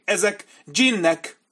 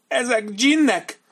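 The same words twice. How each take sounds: First: High, slow, fearful voice; frightened insistence. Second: Much higher, slow, loud terrified cry; terrified commander. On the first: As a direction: insist in dread they are djinns. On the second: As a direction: let the terror climb as he insists. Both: A narrator's reading.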